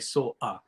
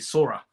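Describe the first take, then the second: First: A glottal stop separates the two words. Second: An R sound links the two words. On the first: "I make this glottal stop between saw and a" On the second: "They use this R to connect the words"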